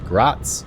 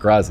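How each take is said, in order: First: The word ends with a ts sound. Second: The word ends with a plain z sound. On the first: The speaker calls it right. "you say it more like a T S type of thing" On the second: The speaker calls it wrong. "It's not Graz"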